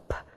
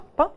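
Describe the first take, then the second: First: The P has a puff of air. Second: The P has no puff of air. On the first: "с придыханием она произносится" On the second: "в русском P, P и все"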